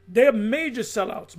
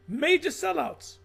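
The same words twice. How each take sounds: First: Said in the usual way. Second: Major drawn out slow and higher; slow stress on Major. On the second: Shown as a demonstration. Repeating it to the audience, Major stretched slowly.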